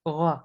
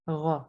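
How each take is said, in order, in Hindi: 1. स्वर बस थोड़ी देर ही रोका जाता है। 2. स्वर बस थोड़ी देर ही रोका जाता है।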